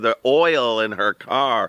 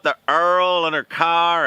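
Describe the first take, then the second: First: Oil is said plainly without a strong accent. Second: Oil is drawn out in a strong Texan accent.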